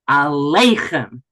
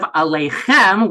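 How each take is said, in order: First: The stress is on the second-to-last syllable. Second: The stress is on the last syllable. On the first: "the trop moved to the second to last syllable" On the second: "Instead of aleichem"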